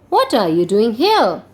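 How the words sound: It is read with a questioning tone.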